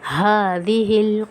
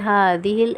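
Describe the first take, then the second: First: The h sound is clearly and fully pronounced. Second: The h sound is weak and unclear. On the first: The speaker calls it right. "हा की आवाज़ हमने प्रॉपर निकालनी पड़ना है" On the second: The speaker calls it wrong. "कुछ लोग पढ़ते हैं हाज़िहिल, ऐसे नहीं होगा"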